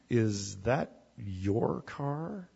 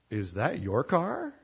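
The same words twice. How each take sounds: First: Slow and softer, each word drawn out with judgment; loaded, disapproving question. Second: Said in the usual way. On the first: Shown as a demonstration. Someone looking down on your car, slow and disapproving. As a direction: ask it slowly, as if the car is a disgrace. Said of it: "But if they said". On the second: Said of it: "if somebody were to say to you".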